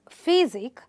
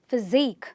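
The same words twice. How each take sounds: First: The stress is on the first syllable. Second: The stress is on the last syllable. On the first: The speaker calls it wrong. "not physique" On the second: The speaker calls it right. "you're going to stress the, the suffix itself"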